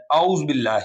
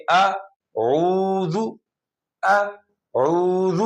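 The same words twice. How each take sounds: First: اعوذ with hamza instead of ain and silent ذ; اعوذ said sloppily, ain dropped; wrong pronunciation. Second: Very slow اعوذ with a throaty ain; drawn-out اعوذ with full ain; correct pronunciation. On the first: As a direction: demo the common mistake in اعوذ. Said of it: "اعوذ باللہ نہیں پڑھیں گے". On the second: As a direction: stretch اعوذ out, ain clearly voiced. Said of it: "صحیح پڑھنے کے لیے". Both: Shown as a demonstration.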